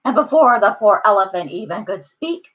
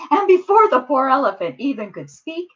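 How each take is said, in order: First: Narration lightly tinged with a character voice; wrong character voice. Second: Said in the usual way. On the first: A narrator's reading. Storyteller slipping into the wrong voice, quick character tinge. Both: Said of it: "that was the wrong voice".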